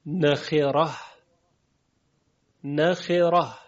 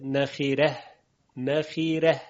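First: Said in the usual way. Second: «نخیره» with a thin r leaning toward "reh"; «نخیره» ending in a light "reh", not a heavy "rah"; Warsh tarqiq. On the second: Shown as a demonstration. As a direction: lighten the ر in «نخیره», fronting the vowel after it.

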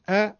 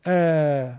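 First: ا as one short front 'a'; short Arabic fatha. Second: ا doubled into a long front 'a'; long Arabic alef. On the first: Teacher showing Arabic fatha, short front 'a'. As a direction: cut ا short, higher pitched. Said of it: "این فتحشونه کوتاه". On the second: Teacher showing fatha doubled into alef, long front 'a'. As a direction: hold ا long, same vowel quality. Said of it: "اگر دو برابر بکنید الف مدیشون". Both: Shown as a demonstration.

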